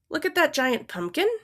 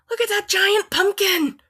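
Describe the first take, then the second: First: It is said as a question. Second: It is said with excitement.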